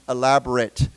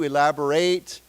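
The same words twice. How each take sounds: First: The last syllable has a weak, reduced vowel. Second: The last syllable has a full 'ay' vowel. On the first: It is used as an adjective. "elaborate as a 形容词" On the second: It is used as a verb. "to elaborate with an A"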